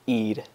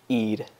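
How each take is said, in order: First: The R is a quick tap like D. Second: The same.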